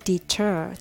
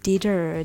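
First: The middle t is a clear, crisp t. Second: The middle t sounds soft, like a d. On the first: The speaker calls it right. "t をしっかり発音するので" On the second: The speaker calls it wrong. "ではなく"

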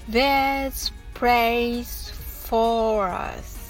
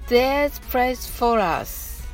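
First: The phrase is spoken slowly. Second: The phrase is spoken quickly. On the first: "まずはゆっくりと発音します。" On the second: "次に早く言ってみましょう。"

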